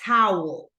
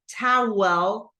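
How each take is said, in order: First: The word is said as one syllable. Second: The word is split into two syllables. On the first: The speaker calls it right. "but towel" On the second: The speaker calls it wrong. "we don't say towel like two syllables"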